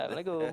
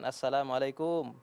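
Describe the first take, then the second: First: The greeting is said sloppily and unclearly. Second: The greeting is said clearly and fully. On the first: The speaker calls it wrong. "Ini tidak benar ini" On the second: The speaker calls it right. "assalamualaikum yang bermakna jelas"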